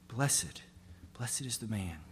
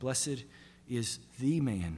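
First: The word 'blessed' is stressed. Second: The word 'the' is stressed.

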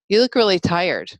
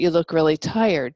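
First: The voice sounds reprimanding and scolding. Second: The voice sounds gentle and genuinely curious. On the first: The question implies blame, as if to say I told you so. The speaker calls it wrong. "that reprimanding, scolding tone in your voice" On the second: The question is an open, caring inquiry. The speaker calls it right. "You can ask it like that"

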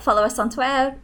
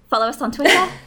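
First: The t's in Twitter are softened, American style. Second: The t's in Twitter are crisp, British style. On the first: The speaker calls it wrong. "You briefly slipped into American English there" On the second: The speaker calls it right. "I'm going to do that one again"

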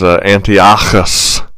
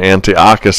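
First: The 'ch' is a guttural throat sound. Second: The 'ch' is a hard K sound. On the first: "this guttural throat sound" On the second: "they won't say Antiochus as if it's a K"

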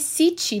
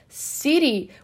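First: The middle consonant is a clear t sound. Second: The middle consonant is a quick r-like tap. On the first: "palavra se escreve city" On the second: "Como se fosse um R e não um T"

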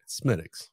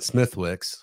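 First: The th and w sounds are silent. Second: The th and w sounds are pronounced. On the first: The speaker calls it right. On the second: The speaker calls it wrong. "No, it's not Smithwix"

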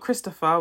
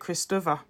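First: It is said in a plain English way. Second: It is said the way Igbo speakers say it. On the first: "but not Christopher" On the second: "we call it Christopher"

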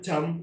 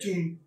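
First: The vowel sounds like a, English style. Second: The vowel sounds like u, as written. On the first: It is read the English way, unlike the spelling. The speaker calls it wrong. "bukan jam" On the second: It is read as the spelling shows, German style. The speaker calls it right. "kita bacanya jum"

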